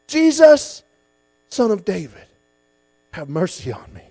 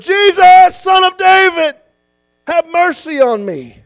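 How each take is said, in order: First: It is called out at normal loudness. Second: It is called out much louder.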